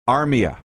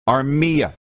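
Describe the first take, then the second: First: The stress is not on the middle syllable. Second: The stress is on the middle syllable. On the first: The speaker calls it wrong. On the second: The speaker calls it right.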